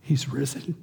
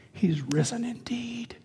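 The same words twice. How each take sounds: First: Said in the usual way. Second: Breathy whisper, slow and hushed; the Easter words whispered, not shouted; whispered from the heart. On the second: Shown as a demonstration. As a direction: say it softly, as a private conviction. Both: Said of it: "now I say it in my heart with passion".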